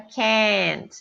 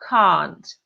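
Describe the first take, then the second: First: Said in an American accent, mouth more open. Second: Said in a British accent. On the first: "O americano vai falar com a boca mais aberta" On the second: "Mas o britânico"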